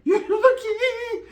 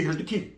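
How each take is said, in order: First: Very high, drawn-out singsong with laughter; squealed mockery. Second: Said in the usual way. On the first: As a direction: stretch it into a laughing falsetto taunt. Repeats line in squealed mockery.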